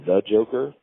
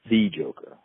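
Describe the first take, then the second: First: The word 'the' is said as a reduced 'thuh'. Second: The word 'the' is said as an emphatic 'thee'. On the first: It is just one joker among many. The speaker calls it wrong. "you can't say the Joker" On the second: It is the one and only joker. The speaker calls it right. "You have to say the Joker. That, like, that's him. That's the exclusive"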